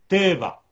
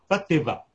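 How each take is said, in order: First: The stress is on the first syllable. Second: The stress is on the last syllable. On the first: The speaker calls it right. "avec l'accent sur le premier tête" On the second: The speaker calls it wrong.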